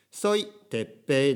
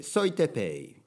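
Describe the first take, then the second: First: Slow, "Teppei" in Japanese pronunciation with held p; Japanese-style name in Spanish. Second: "Teppei" as a smooth Spanish "Tepei", falling; Spanish-style name. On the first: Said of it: "だとちょっと". (「Teppei」を日本語の発音で) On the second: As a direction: say it fluently in Spanish intonation. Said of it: "スペイン語で言えば". (スペイン語風に) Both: Shown as a demonstration.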